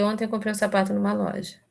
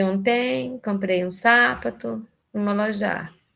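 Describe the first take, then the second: First: Said in the usual way. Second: Slow, "Ontem", "sapato", "loja" said as onTEM, SApato, loJA; deliberately misplaced stress on "Ontem", "sapato" and "loja", drawn out; shifted word stress. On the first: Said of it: "Eu, eu falei". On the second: Shown as a demonstration. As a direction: spell out the wrong stresses slowly: "sapato" as SApato, "loja" as loJA. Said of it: "Só que eu falei".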